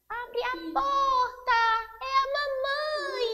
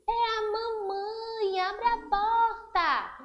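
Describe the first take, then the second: First: It is said in a high, thin voice. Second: It is said in a deep, gruff voice.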